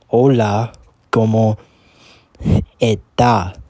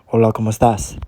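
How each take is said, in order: First: The T sounds harsh, and the final s drops. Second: The T sounds soft, and the final s stays.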